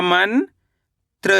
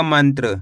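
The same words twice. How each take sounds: First: "मन" rising, pause, then "त्र"; split syllables. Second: Said in the usual way. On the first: Shown as a demonstration. Teacher spelling out the word by syllables, split syllables. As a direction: keep मन and त्र as separate syllables. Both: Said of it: "तो मिलके बन जाएगा".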